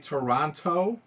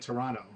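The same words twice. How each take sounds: First: The final T sound is clearly pronounced. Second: The final T sound is dropped. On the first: "Americans say Toronto" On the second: "You don't say the T at the end"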